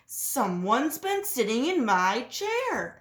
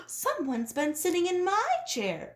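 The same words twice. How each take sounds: First: Slow, deliberate papa-bear exclaim. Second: Higher mama-bear cry, stress on my. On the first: Papa Bear finds his chair sat in, slow exclaim. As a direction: draw it out like a big bear. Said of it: "exclaimed Papa Bear". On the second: Mama Bear finds her chair sat in, higher cry. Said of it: "cried Mama Bear". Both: A narrator's reading.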